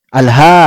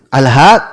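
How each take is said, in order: Both takes have the same delivery.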